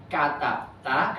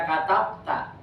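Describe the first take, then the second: First: "katab ta" said slowly, each syllable set apart; careful slow reading. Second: "katab ta" read straight off, a quick careless guess; hasty reading. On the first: Teacher slowly modelling "katab ta" for students. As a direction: spell out "katab ta" slowly for the class. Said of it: "kamu menulis". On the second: Teacher showing students the hasty misreading "katab ta". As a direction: rush through "katab ta" without thinking. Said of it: "nggak langsung buru-buru baca". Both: Shown as a demonstration.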